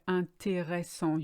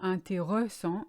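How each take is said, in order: First: Every syllable is fully said. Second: The middle syllable is skipped. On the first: The speaker calls it right. "You kind of deconstruct the word" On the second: The speaker calls it wrong. "you skip the middle R E S"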